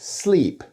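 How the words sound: A voiceless s with a slightly devoiced l. "the L becomes a little devoiced"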